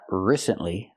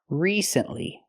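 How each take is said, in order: First: The first vowel is a short I sound. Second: The first vowel is a long E sound. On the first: The speaker calls it wrong. "Not the short I like this is" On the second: The speaker calls it right. "We have to use a long E sound like green beans"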